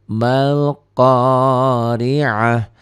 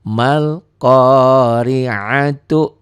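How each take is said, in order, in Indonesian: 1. Frasa ini berakhir dengan bunyi 'h'. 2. Frasa ini berakhir dengan bunyi 'tu'.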